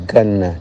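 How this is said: The word begins with a hard g sound. This is how it is said in Egyptian speech.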